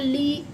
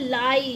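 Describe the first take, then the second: First: The vowel sounds like 'ee'. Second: The vowel sounds like 'eye'. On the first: The speaker calls it wrong. "इसे हम ली या लिया या ली ऐसे नहीं पढ़ते" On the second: The speaker calls it right. "आई की voice निकालेगा"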